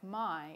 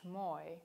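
First: The vowel sounds like eye. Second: The vowel sounds like oy. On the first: "a word like my" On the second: "is pronounced moi"

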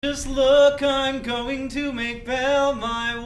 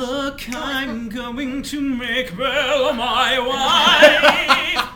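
First: One voice is kept throughout the line. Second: It starts cool, then switches personality midway.

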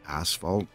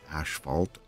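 First: The word uses the standard pronunciation. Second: The word uses a local colloquial pronunciation. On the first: The speaker calls it right. "It's pronounced asphalt" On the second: The speaker calls it wrong. "is just our own colloquial, ... Way of saying it here"

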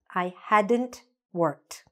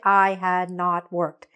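First: The words 'had not' are contracted into one word. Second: The words 'had not' are said in full as two words. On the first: The speaker calls it right. "We say, I hadn't. So let's repeat that" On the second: The speaker calls it wrong. "we don't say"

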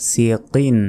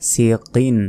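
Both takes have the same delivery.

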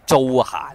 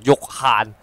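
First: The name begins with a J sound. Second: The name begins with a Y sound. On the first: The speaker calls it wrong. "一般人就会读租闲咁啊错" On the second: The speaker calls it right. "其实应该读玉悭"

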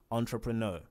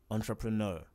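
No difference in how they are said.

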